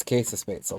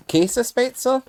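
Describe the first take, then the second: First: Käsespätzle said evenly with a falling end; settled German pronunciation. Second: Käsespätzle tried high and rising, as a question; unsure German pronunciation. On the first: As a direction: say Käsespätzle confidently, KAY-zuh-shpets-el. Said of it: "is how that'd be pronounced". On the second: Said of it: "been a while since German classes". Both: Real, not acted.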